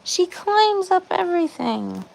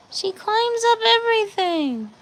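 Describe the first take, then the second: First: Mildly exasperated. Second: Higher exasperated repeat. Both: Real, not acted.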